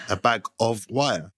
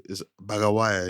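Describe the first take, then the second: First: Said in the usual way. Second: Put-on light Jamaican accent, mum's way of saying it. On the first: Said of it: "with the Jamaican accent". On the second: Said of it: "with the Jamaican accent and all that kind of stuff".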